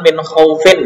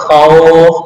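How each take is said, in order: First: The word ends with the -in nunation sound. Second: The word ends on a bare consonant. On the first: The reading continues without stopping. "kan min khaufin ya" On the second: The reader stops on this word. "dibaca khauf"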